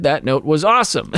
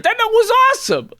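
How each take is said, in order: First: Said in the usual way. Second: Very high, squeaky put-on whine; hammed-up high-pitched self-defence; mock boyfriend. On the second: Mocks the boyfriend's clueless reply.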